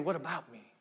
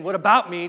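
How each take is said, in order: First: Soft, low, falling question; quietly doubting your own importance; humbled self-questioning. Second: Loud, indignant self-pity; loud me-first objection; self-centered complaint. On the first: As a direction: turn it inward, hushed and humbled. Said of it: "to saying, "What about me?". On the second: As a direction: protest it loudly, putting yourself first. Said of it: "instead of saying, ... to saying". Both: Shown as a demonstration.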